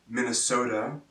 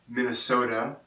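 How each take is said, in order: Both takes have the same delivery.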